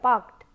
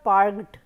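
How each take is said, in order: First: The ending is a voiceless t sound. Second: The ending is a voiced d sound. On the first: The speaker calls it right. "rather it is t" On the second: The speaker calls it wrong. "it is not parked, d, d, it is not d"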